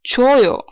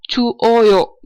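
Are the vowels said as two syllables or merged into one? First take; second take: merged; separate. First: The two vowels merge into one compound vowel. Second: The two vowels are said as separate syllables. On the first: The speaker calls it right. "it is again a compound vowel like this" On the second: The speaker calls it wrong. "Chu oyo is wrong"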